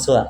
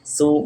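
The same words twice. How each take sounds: First: The vowel is short. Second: The vowel is held long, about four counts. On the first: The speaker calls it wrong. "Jangan su" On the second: The speaker calls it right. "Su-nya kasih panjang ... empat harokat"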